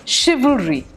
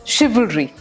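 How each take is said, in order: Both takes have the same delivery.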